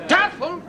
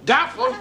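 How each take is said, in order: First: Laughing. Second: Incredulous. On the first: Repeats it laughing. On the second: Echoing the word incredulously. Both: Acted.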